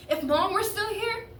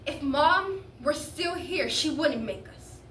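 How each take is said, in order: First: High, loud, rising appeal; higher-pitched plea rising at the end; upset protest. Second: Slow, deliberate, louder accusation; drawn-out, pointed reproach; insistent protest. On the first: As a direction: start a challenge and leave it hanging. Teen protests to father, breaks off. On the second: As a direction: press each word home slowly. Teen presses the protest home. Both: Acted.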